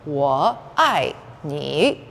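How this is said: Each syllable is said separately and carefully. "over enunciate like that"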